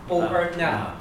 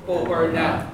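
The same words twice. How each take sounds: The two takes are said the same way.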